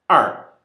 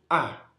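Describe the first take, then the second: First: The word ends with an r-coloured vowel. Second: The word ends on a plain vowel without r. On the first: This is the standard form. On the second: This is a dialect form.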